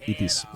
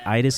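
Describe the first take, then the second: First: The word is said with a Finnish pronunciation. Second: The word is said with an English pronunciation. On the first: "I would call it itis in Finnish" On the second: "you guys would pronounce it itis"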